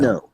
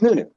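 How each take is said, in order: First: The last vowel sounds like "oh". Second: The last vowel sounds like "oo". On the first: It follows English reading of the spelling. The speaker calls it wrong. "If you apply English phonetics to the way he spells his name, yes, you would call him" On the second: It follows how he says his own name. The speaker calls it right. "the best way we can pronounce it in English is, in fact, new, new. So he's Nunu"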